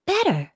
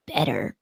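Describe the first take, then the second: First: "Better" sung out high and falling, a bright jingle tag; commercial voice. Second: Said in the usual way. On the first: Shown as a demonstration. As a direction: sing "Better" high like an ad slogan. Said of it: "like this". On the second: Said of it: "But not, like, better, like this".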